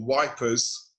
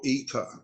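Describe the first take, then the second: First: The name begins with a w sound. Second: The name begins with a vowel sound. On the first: This is how soldiers who couldn't pronounce it said it. "as the English troops used to call it" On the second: This is the usual local name. "as it's known"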